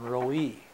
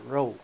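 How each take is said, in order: First: The name is said with two syllables. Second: The name is said with one syllable. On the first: How others at mail call read the name. "they was calling Roe E" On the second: How the family says the name. "we pronounce that Roe"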